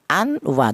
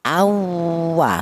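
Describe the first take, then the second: First: The n sound is pronounced clearly before w. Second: The n sound merges into the following w. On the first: The speaker calls it wrong. "Tidak boleh tanwin ini dibaca jelas atau dibaca idhar" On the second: The speaker calls it right. "langsung disatukan atau dimasukkan ke huruf wawu"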